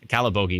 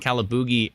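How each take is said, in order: First: The middle vowel sounds like 'bogie'. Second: The middle vowel sounds like 'boogie'. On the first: The speaker calls it right. "Calabogie is fine" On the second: The speaker calls it wrong. "I kept calling it Calaboogie"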